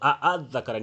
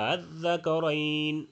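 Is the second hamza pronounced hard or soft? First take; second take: hard; soft. First: The second hamza is pronounced hard and full. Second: The second hamza is pronounced soft and light. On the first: The speaker calls it wrong. "প্রথম হামজার মতো আ আদ যাকারাইন এরকম বলা যাবে না" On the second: The speaker calls it right. "হালকা উচ্চারণ করতে হবে"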